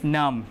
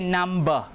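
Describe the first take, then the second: First: The word ends on the m sound only. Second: A b sound is heard after the m. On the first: The speaker calls it right. "B is a silent letter, so it's num" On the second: The speaker calls it wrong. "We don't say number, right? We pronounce only the m"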